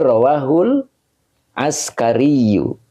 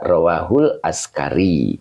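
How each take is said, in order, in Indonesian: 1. Kata terakhir diakhiri dengan bunyi 'yu'. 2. Kata terakhir berakhir dengan 'i' tanpa 'yu'. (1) "Jadi ini rawahul askariyu" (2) "Cukup dibaca rawahul askari gitu ya"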